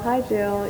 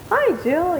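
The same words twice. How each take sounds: First: The greeting sounds flat and unenthusiastic. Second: The greeting sounds warm and enthusiastic. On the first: The visitor is more in the way than welcome. "his tone of voice and everything" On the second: The visitor is welcome and special. "not like"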